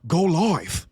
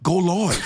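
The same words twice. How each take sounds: First: Mock West Coast drawl on "go live"; West Coast accent. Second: Put-on West Coast accent. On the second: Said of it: "wanna be from the West Coast so bad".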